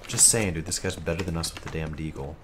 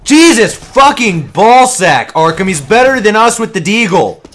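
First: Very quiet, low, quicker restatement; toned-down grumble. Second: Exasperated yelling. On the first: Gamer justifying himself after being told off, quiet grumble. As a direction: drop the yelling and say it small and low. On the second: Gamer griping to teammates about a better player, yelling. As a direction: yell it in real disbelief at the enemy's aim. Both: Real, not acted. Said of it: "Now stop yelling".

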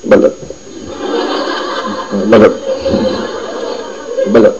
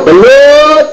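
First: Short, timid "Balot", hardly projected; half-hearted vendor's call; barely audible call. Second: High, drawn-out street vendor cry; sing-out hawker's call; vendor's call. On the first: Shown as a demonstration. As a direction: say "Balot" too softly for anyone to hear. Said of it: "ganito lang". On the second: Acted. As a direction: call out your wares like a balut seller.

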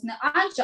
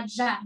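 First: АДЖЕ stressed on the first syllable, Адже; wrong stress. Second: Адже stressed on the last syllable, аджЕ; correct stress. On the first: (неправильний наголос: «адже» на першому складі) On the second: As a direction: put the weight on the final Е of "адже". (правильний наголос: «адже» на останньому складі) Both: Shown as a demonstration. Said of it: "пам'ятаєте наголос".

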